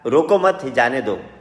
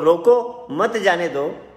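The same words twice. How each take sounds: First: The pause comes after 'मत'. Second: The pause comes after 'रोको'.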